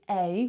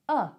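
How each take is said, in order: First: The word is said with a full ay vowel. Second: The word is said as a neutral uh. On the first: The speaker calls it wrong. "We don't say a" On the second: The speaker calls it right. "we say uh"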